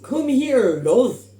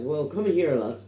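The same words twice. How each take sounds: First: Loud, high-pitched attempt at Irish; terrible Irish accent. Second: Put-on Irish accent, toned down; second try at a plain generic Irish. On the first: Imitating an Irish steward who finds a lost passenger, terrible Irish accent. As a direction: call it out in a bad, overblown Irish accent. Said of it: "a really terrible Irish". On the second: Retelling the kind steward's words, generic Irish accent. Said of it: "do a generic Irish accent".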